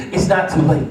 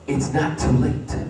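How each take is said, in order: First: "It's not too late" belted out, stressing "not"; loud preached peak. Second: "It's not too late" said slowly and softly, leaning on "not"; slow quiet refrain. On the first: Preacher climaxing the refrain to the church, stress on "not". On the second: Preacher quietly starting the refrain to the church, soft "not". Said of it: "It's not too late in your situation". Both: Acted.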